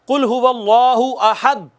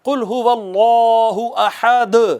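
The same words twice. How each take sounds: First: The final d stops flat with no echo. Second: The final d is released with an echoing bounce. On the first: The speaker calls it wrong. "इसको अगर आप यूं पढ़े ना ... यह गलत है" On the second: The speaker calls it right. "उस पर कलकला करेंगे और यूं पढ़ेंगे"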